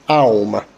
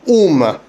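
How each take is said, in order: First: The word begins with an a sound. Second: The word begins with a u sound. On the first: This is how the word is actually said. The speaker calls it right. "because of the ein, it is pronounced aum" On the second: This is how the spelling would suggest it is said. The speaker calls it wrong. "It should theoretically be pronounced um"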